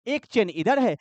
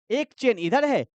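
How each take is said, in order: Both takes have the same delivery.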